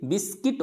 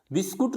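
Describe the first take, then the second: First: बिस्किट with short I, U silent; correct pronunciation बिस्किट. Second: बिस्कुट with U in the second syllable; mispronounced बिस्कुट. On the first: Teacher correcting learners, बिस्किट with short I. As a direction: say बिस्किट as bis-kit. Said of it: "बिस्किट होता है". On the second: Teacher showing the common error, बिस्कुट with U. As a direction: say बिस्कुट as bis-kut. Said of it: "बिस्कुट नहीं होता है ये". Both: Shown as a demonstration.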